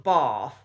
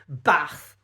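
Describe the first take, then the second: First: It is said with a southern standard accent. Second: It is said with a Nottingham accent. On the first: "rather than" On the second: "the Nottingham accent does tend to reassert itself"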